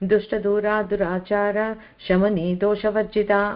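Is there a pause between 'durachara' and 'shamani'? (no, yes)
yes. A pause splits durachara from shamani. The name is broken apart, changing the meaning. The speaker calls it wrong. "అన్నామనుకో complete meaning మారిపోతుంది"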